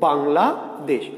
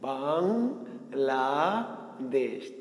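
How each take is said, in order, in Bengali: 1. শব্দটি দুটি আলাদা ভাগে বলা হয়। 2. শব্দটি তিনটি আলাদা ভাগে বলা হয়। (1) "আমি দুইবারে বলবো" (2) "তিনটা"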